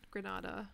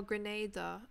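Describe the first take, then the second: First: "Grenada" said as gre-NAH-da, long ah; "Grenada" with the stress on an open NAH; first pronunciation. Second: "Grenada" said as gre-NAY-da, ay vowel; "Grenada" with stress on NAY, corrected; corrected pronunciation. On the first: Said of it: "Oh, Grenada". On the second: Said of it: "Okay, Grenada". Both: Shown as a demonstration.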